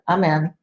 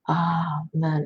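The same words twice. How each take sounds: First: The word is said quickly and clipped. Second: The word is drawn out slowly. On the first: The prayer is finished and closed off. The speaker calls it wrong. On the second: The prayer continues in the flow of the divine. The speaker calls it right.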